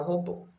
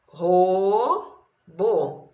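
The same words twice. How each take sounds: First: Said in the usual way. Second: Robô split, long ro, pause, then bô; syllable by syllable. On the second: Shown as a demonstration. Teacher showing two syllables, syllable by syllable. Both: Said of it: "Duas sílabas".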